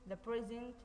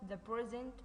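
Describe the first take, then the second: Both takes have the same delivery.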